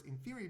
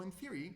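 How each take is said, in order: First: In theory, with theory lifted and leaned on; stress on theory. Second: Said in the usual way. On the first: Shown as a demonstration. Lecturer stressing that quantum attacks work only in theory. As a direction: hit the word theory a little higher. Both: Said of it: "I really want to stress the words".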